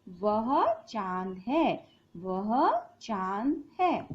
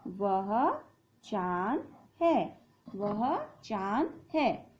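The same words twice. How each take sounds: First: वह चांद है said slowly, वह leading; slow model sentence. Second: वह चांद है said slowly while writing; slow dictation. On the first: Teacher models the sentence slowly for pupils. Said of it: "तो हम क्या बोलते हैं?". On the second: Teacher writes on the board, slowly dictating. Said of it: "तो यहाँ लिखेंगे वह". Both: Shown as a demonstration.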